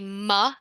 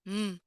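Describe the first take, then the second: First: The m sound is followed by an added vowel. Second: The m sound is held alone without a vowel. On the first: The speaker calls it wrong. "I don't say ma" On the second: The speaker calls it right. "I say mm"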